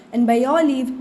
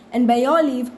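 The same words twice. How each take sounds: The two takes are said the same way.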